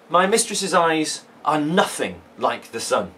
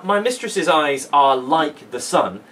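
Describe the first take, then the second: First: Slow reading, nothing stressed. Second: Said in the usual way. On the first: Shown as a demonstration. Teacher reads the sonnet's first line to the class, slow and deliberate. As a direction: lean on nothing as you read it slowly. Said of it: "that is the word to pick on". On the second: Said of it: "is a simile".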